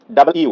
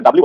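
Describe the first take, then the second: First: "ডাবল ইউ" as two distinct words; full W name. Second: "ডাব্লিউ" run together as dab-liu; slurred W name. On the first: Teacher models letter W, clearly separated "ডাবল ইউ". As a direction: separate "ডাবল ইউ" into double and you. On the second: Teacher shows common W mistake, merged "ডাব্লিউ". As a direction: squash "ডাব্লিউ" into one word. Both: Shown as a demonstration. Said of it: "এটা কিন্তু ডাব্লিউ বলি আমরা".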